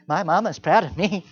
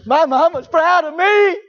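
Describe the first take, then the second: First: Said in the usual way. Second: Put-on high, loud, slow sing-song kid gloat; child bragging in a high chant; smug kid. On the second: Kids parroting their praise.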